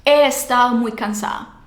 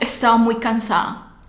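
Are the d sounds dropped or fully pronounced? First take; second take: dropped; dropped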